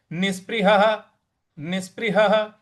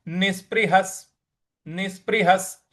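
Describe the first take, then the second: First: निष्पृहः ending on a breathy visarga ह; separate reading. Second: निष्पृहस् ending in a clear स; joined sandhi reading. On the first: Teacher showing the word read alone. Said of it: "अगर हम अलग पढ़ते हैं". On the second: Teacher showing the joined form in the verse. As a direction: turn the visarga of निष्पृहस् into स. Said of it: "इस प्रकार से हो जाएगा". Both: Shown as a demonstration.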